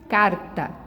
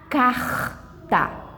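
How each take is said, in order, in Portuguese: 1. O R final soa como outra fala regional. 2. O R final soa como a fala do Rio de Janeiro. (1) "Tem outros lugares que vai falar carta" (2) "Rio de Janeiro, eles vão falar assim"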